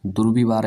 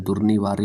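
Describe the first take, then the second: First: दुर्विवार as "dur-vi-vaar"; wrong "vi" form. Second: दुर्निवार्य as "dur-ni-vaarya"; n in the middle, "rya" ending on दुर्निवार्य; correct "ni" form. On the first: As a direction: end दुर्विवार on a bare r. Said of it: "ऐसे नहीं लिखा जाता". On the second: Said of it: "होता है". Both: Shown as a demonstration.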